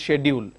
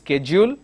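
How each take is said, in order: First: It is said with a British accent. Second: It is said with an American accent. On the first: "the complete British pronunciation" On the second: "the complete American pronunciation"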